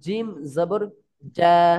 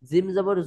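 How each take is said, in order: First: The final syllable is said pressed and firm. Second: The final syllable is said plainly, not pressed. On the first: The speaker calls it right. "এটা চেপে" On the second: The speaker calls it wrong. "নয়"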